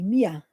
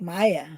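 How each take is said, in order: First: The first vowel sounds like 'ee'. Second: The first vowel sounds like 'eye'. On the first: The speaker calls it right. "And it's just M I A, Mia" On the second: The speaker calls it wrong. "You sometimes say it like Maya"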